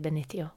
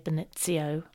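First: The name is said in a Spanish (Spain) way. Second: The name is said in a South American way.

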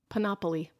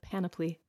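First: The word is said with an added extra syllable. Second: The word is said without the added syllable. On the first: "You added a syllable" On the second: "instead of"

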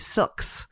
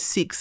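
First: It is said with a New Zealand accent. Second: It is said with an Australian accent. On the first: "they say sucks" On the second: "we say six"

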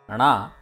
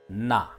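First: The n is retroflex, with the tongue curled back. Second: The n is dental, with the tongue at the teeth. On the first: The speaker calls it right. "It should be pronounced as na" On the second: The speaker calls it wrong. "rather than na"

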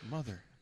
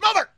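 First: It is said flat and calm. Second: It is said with excited energy.

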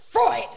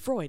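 First: The name is said with loud exclamatory excitement. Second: The name is said flatly and plainly.

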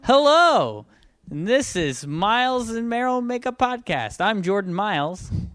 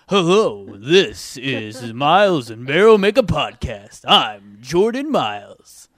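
First: It is said in his ordinary intro voice. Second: It is said in an action-hero voice.

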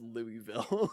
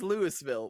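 First: The name is said in its local form. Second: The name is said the way it is spelled. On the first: The speaker calls it right. "but it's pronounced Louisville" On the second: The speaker calls it wrong. "It reads Louisville"

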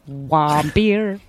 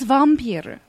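First: The word begins with a W sound. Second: The word begins with a V sound.

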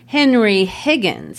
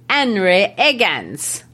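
First: The H sounds at word starts are pronounced. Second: The H sounds at word starts are dropped. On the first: "He cannot say Henry Higgins" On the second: "He cannot pronounce his H's, and that is a sign of being a Cockney"

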